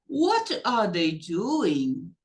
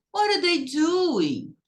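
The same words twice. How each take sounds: First: "What are they doing" word by word, very slow, rising end; read as written. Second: "What are" linked into one word, high and falling; spoken-style linking. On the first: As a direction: separate "What" from "are" as if reading. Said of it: "Se eu só ler pra vocês". ("What are" separado, lido como se escreve, bem devagar) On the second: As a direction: model "What are" as people really say it. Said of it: "as pessoas não falam como tá escrito". ("What are" junto como se fala, agudo, caindo no fim) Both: Shown as a demonstration.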